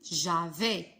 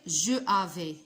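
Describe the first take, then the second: First: The vowel of je is dropped entirely. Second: The vowel of je is fully pronounced. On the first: The speaker calls it right. "mais on dit j'avais" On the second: The speaker calls it wrong. "On ne peut pas dire je avais"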